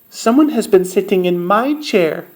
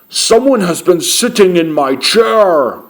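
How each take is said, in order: First: A medium, mid-pitched voice. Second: A loud, deep, booming big voice.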